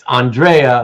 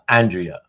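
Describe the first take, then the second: First: The name is said in the Italian way. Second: The name is said in the American way. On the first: It is the male Italian name. The speaker calls it right. "It's Andrea, like Andreas" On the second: It is the American woman's name. The speaker calls it wrong. "not Andrea, not the American woman's name"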